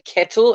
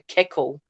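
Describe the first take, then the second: First: The middle consonant is a clear t sound. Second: The middle consonant sounds like a k. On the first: This is how the speaker says it. "I call it a kettle" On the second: This is how the speaker's English-born mother says it. "my mum calls it a keckle"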